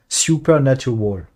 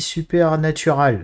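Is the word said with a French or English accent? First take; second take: English; French. First: It is said with an English accent. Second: It is said with a French accent. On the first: "Ouais, comme ça" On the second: "bien à la française"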